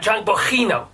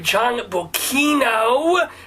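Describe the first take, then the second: First: The middle consonant is a throaty h sound. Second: The middle consonant is a hard k sound. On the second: "which phonetically has to do with the cuss sound instead of the huss sound"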